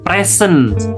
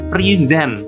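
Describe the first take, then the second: First: The first vowel is 'eh' and the s hisses. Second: The first vowel is 'ee' and the s buzzes. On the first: The speaker calls it wrong. "bukan present" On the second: The speaker calls it right. "titik kritisnya ini ada pada pre dan kemudian z ... E ini juga dianggap tidak ada dan diganti dengan huruf i"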